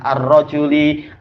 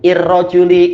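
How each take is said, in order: First: The word begins with an 'a' vowel. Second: The word begins with an 'i' vowel. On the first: The speaker calls it right. "pasti fathah" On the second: The speaker calls it wrong. "Kita tidak bilang il"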